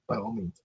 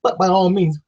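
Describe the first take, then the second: First: Whispered sarcastic aside; hushed sarcasm, much softer. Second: Said in the usual way. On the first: Shown as a demonstration. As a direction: drop to a bare whisper on By all means. Sarcastic repeat, dropped to whisper.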